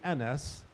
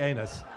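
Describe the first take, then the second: First: The name begins with an 'eh' sound. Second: The name begins with an 'ay' sound. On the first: The speaker calls it right. "so if you want to call me Enes, don't mispronounce me" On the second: The speaker calls it wrong. "don't call me anus"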